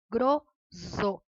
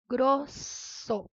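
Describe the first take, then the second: First: The middle consonant is a buzzing Z sound. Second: The middle consonant is a hissing S sound. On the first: The speaker calls it wrong. "um S só entre duas vogais, ficaria grosso" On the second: The speaker calls it right. "para ter esse mesmo som, eu tenho que ter dois S's"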